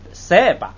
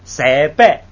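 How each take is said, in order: First: The second syllable is light and toneless. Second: Both syllables are said with full tone. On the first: The speaker calls it right. "这样来读" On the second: The speaker calls it wrong. "就不读三百，就不是这样读"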